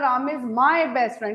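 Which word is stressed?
my. The word my carries the main stress. He is only my friend, not yours. "इसका मतलब he is only माई not yours"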